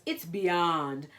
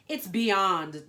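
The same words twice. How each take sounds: First: Loud, stressed catchphrase; emphatic compliment. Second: Loud, emphatic diva verdict; fashion declaration. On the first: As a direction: say it as her signature praise. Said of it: "was Panda's most special compliment". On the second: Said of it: "declared Panda". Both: Acted.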